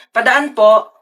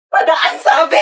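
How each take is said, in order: First: Said in the usual way. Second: Raised, impatient cry to let you pass; insistent shout. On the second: Acted. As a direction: shout it, demanding to get through. Demanding to pass, fed up.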